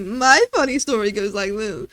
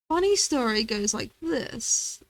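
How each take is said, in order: First: It is said in a put-on sassy voice. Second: It is said in the speaker's ordinary voice.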